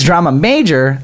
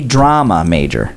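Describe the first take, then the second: First: The stress falls on the word major. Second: The stress falls on the word drama. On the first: It names something like a constellation. The speaker calls it wrong. "you'd be thinking like Ursa Major, you know, like a constellation" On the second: It names a student who studies drama. The speaker calls it right. "the person that's going to school studying drama"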